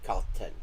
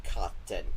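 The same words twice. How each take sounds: First: The word has a Norwegian-sounding short a vowel. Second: The same.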